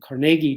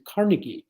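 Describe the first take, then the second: First: The name is said the old way, Carnagey. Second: The name is said the new way, Carnegie. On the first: This is the family's original rural name. "The original spelling of his name, the family spelling, was Carnegie, C A R N A G E Y" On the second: This is a reinvented, more confident identity. "he changed it to Carnegie, C A R N E G I E"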